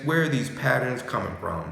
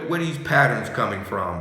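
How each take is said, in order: First: Said in the usual way. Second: "patterns" pushed a little faster and louder; pushed question. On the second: Shown as a demonstration. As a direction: rush through "where are these patterns coming from".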